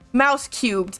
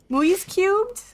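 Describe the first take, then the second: First: The first word sounds like mouse. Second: The first word does not sound like mouse. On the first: The speaker calls it right. "It's mouse, Dutch for mouse" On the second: The speaker calls it wrong. "I say it wrong every time"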